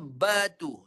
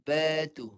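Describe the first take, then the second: First: The b has the lips pressed together firmly. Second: The b has the lips closed lightly and loosely. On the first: This is the local everyday way of saying it. "Ini ini bibir antara dua bibir tekan kuat. Batu tu Melayu lah" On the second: This is how it sounds in Arabic.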